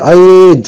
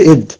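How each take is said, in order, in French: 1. La voyelle est longue, on la tire. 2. La voyelle est dite courte. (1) "Vous voyez, je tirais là" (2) "S'il n'y aurait pas eu le ya, j'aurais dit id"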